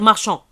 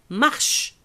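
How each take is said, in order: First: The word ends with a nasal vowel. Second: The word ends without a nasal vowel. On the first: The speaker calls it wrong. "on va pas dire marchand" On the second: The speaker calls it right. "ça se prononce"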